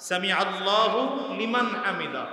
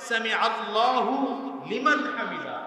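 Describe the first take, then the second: No difference in how they are said.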